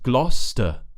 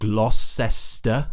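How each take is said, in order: First: The word is said with two short syllables. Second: The word is said with three full syllables. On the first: The speaker calls it right. "it's just Gloucester. Glo, glo" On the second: The speaker calls it wrong. "the common mistake I hear"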